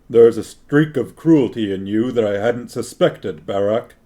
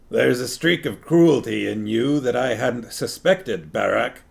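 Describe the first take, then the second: First: It is a lower, smoother voice for King Anheg. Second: It is a gravelly voice like Mister Wolf's.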